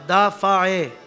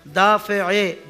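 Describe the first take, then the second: First: The vowel after f is an a sound. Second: The vowel after f is an i sound. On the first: The speaker calls it wrong. "फ़ा के ऊपर ज़बर लगाते हैं" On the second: The speaker calls it right. "ये लफ्ज़ इस तरह अदा होंगे"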